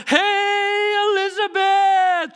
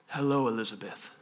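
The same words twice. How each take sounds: First: High, drawn-out excited hail; boisterous greeting. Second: Very low, soft hello; unexcited greeting. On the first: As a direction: holler hello as if bursting with news. Imagined boisterous greeting, contrasted with plain. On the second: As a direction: greet without any fanfare. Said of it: "that's not like a blah moment". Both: Acted.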